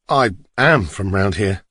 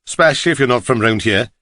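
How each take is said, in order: First: "am" drawn out and leaned on; stress on AM. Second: Welsh taxi driver; Welsh accent. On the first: Passenger contradicts the driver, slow with stress on "am". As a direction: correct them by stressing "am". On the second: Driver sizes up the stranger in his cab, Welsh accent. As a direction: say it in a Welsh lilt. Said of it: "his strong Welsh accent". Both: A narrator's reading.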